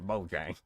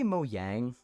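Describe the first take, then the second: First: It is said with the North American pronunciation. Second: It is said with the Swedish pronunciation. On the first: This is how the speaker has always said it. "I'm from North America, and here we we decide how we want to say words" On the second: This is how the makers say it. "They say Mojang because it's literally like a Swedish word"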